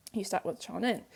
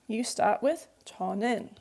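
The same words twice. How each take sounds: First: Softer, lower echo of the rule; soft restatement of "You start with 저는"; quiet repeat. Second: Said in the usual way. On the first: Shown as a demonstration. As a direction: repeat "You start with 저는" gently to drive it home.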